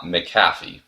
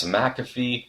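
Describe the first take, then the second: First: McAfee with the stress on the second syllable, muh-CAFF-ee; mispronunciation. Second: McAfee with the stress on the first syllable, MACK-uh-fee; correct pronunciation. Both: Shown as a demonstration. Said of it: "saying her last name wrong".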